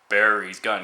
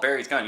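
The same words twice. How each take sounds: First: It is said in a deep voice from the gut. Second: It is said in an ordinary speaking voice. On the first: The speaker calls it right. "You should say it in a deep voice" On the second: The speaker calls it wrong. "you shouldn't just call it Barry's gun"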